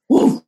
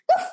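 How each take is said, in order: First: It sounds like a big, deep-voiced dog. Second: It sounds like a small, high-pitched dog.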